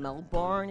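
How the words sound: Melbourne is said in an American accent. This is how Americans say the name. The speaker calls it wrong. "as you Americans say"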